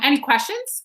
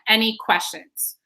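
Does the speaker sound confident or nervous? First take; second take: nervous; confident. First: It sounds nervous and hesitant. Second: It sounds confident, with the voice falling. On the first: The speaker is unsure of themselves. The speaker calls it wrong. "you sound nervous" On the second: The speaker knows what they are talking about. The speaker calls it right. "I'm going to go on a downswing again"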